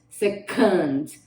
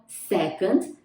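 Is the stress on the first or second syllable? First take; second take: second; first. First: The stress is on the second syllable. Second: The stress is on the first syllable. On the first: To send an employee to work in another office. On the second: To support or agree with something.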